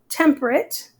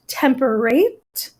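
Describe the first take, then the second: First: The last syllable is weak and unlike date. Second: The last syllable is full and rhymes with date. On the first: This is the present-day pronunciation. "it doesn't really seem like those are rhyming words" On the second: This is how it was said four hundred years ago. "it was probably pronounced temperate and date, and they would have rhymed"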